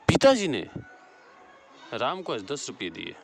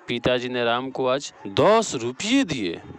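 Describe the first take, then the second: First: The stress falls on पिताजी. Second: The stress falls on दस रुपये. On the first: "यहाँ पिताजी बड़ा घात हो।" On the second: "यहाँ दस रुपये हो जाएगा।"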